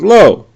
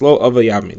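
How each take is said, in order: First: There is a pause after lo. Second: It is said all at once.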